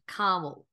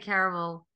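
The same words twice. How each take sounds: First: It is said with an American pronunciation. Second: It is said with a New Zealand pronunciation. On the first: "caramel is the American word for it" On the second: "so we say caramel"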